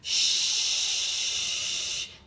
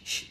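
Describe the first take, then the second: First: One long continuous shush until out of breath. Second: Short, choppy shushes repeated in quick bursts. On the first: The speaker calls it right. "You want to go shh" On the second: The speaker calls it wrong. "and not go shh shh shh shh. You don't want to do that because that's just annoying"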